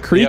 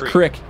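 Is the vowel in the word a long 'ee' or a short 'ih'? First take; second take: ee; ih. First: The vowel is a long 'ee' sound. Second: The vowel is a short 'ih' sound. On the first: "Do you call it a creek or a crick?" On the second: "Do you call it a creek or a crick?"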